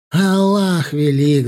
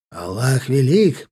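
First: Loud, slow battle cry; shout. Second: Crowd chant. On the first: Nabi rallying the mujahideen, slow loud war cry. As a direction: hurl it to the crowd. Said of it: "закричал Наби". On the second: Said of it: "подхватили маджахедин". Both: A narrator's reading.

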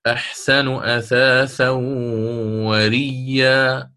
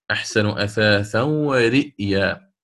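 First: وريا recited very slowly with doubled ya, no hamza; Qalun reading. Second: ورئيا recited slowly with a full hamza; Warsh reading. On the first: Teacher recites Qalun's reading of the verse, slowly. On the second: Teacher contrasts Warsh keeping the hamza, slowly. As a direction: sound the hamza in ورئيا clearly. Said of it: "على تحقيقه". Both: Shown as a demonstration.

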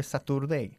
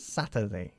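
First: "Saturday" as sa-TUR-day, with a full u and r; wrong pronunciation. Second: "Saturday" as SA-tuh-day, weak middle, lower and softer; correct pronunciation. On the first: Teacher showing the mistake, "Saturday" mispronounced with a full "tur". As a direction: say "Saturday" as spelt, sounding out the "tur". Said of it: "No se pronuncia". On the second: Teacher correcting a student, "Saturday" low and soft as SA-tuh-dei. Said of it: "No se pronuncia Saturday". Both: Shown as a demonstration.

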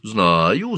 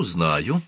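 First: Said in the usual way. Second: Gentler, quieter repeat; softer. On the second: Acted. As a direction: soften on the second. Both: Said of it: "ответила Хатшепсут мягче".

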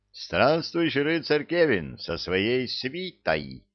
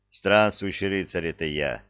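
First: Slow, proud proclamation; herald voice. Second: Calm. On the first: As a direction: announce it like a herald. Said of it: "трубным голосом Герольда провозгласил". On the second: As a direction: say it calmly, simply. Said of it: "спокойно сказал Кевин". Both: A narrator's reading.

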